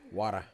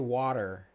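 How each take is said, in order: First: It is said with a New York accent. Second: It is said with a standard American accent. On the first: "That's how New Yorkers say water" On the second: "they say water"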